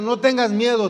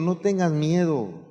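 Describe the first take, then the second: First: It is said in a nervous, agitated tone. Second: It is said in a calm, reassuring tone.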